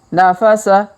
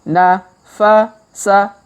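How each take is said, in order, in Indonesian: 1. Suku katanya dibaca cepat dan menyatu. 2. Suku katanya dibaca lambat dan terpisah. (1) "Kalau dipercepat" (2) "Kita baca pelan-pelan"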